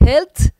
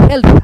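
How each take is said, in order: First: "هلت" mispronounced with a hard final t; wrong pronunciation. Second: "هلت" said correctly as English health, ending in th; correct pronunciation. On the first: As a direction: say "هلت" as helt, a plain t replacing the th. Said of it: "هلت نیست". (تلفظ غلط «هلت» با ت ساده در آخر) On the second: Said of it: "تلفظ صحیح این کلمه هلت هست". (تلفظ صحیح «هلت» با صدای th در آخر) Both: Shown as a demonstration.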